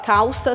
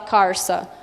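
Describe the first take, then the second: First: It has a standard l sound. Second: It has a caipira r sound.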